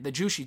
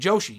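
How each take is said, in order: First: The first vowel sounds like 'oo'. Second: The first vowel sounds like 'oh'. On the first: The speaker calls it wrong. "not Jushi" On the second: The speaker calls it right. "The Joshi"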